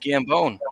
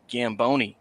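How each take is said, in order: First: The name ends on 'bone' with no extra syllable. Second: The name ends with an extra 'ee' syllable. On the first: The speaker calls it right. "no, it's Gambone, like bones" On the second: The speaker calls it wrong. "everybody loves to pronounce it Gamboni"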